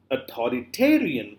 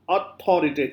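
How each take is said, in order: First: "authoritarian" with the weight late, on ta; stress on ta. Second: "authorita-" weighted on its first syllables, broken off; wrong early stress. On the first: Teacher asking where the stress is, stress on ta. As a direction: lean on "ta" in "authoritarian". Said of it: "Where are you putting the". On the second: Teacher showing what it is not, misplaced stress. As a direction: push the front of "authorita-". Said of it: "This is not". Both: Shown as a demonstration.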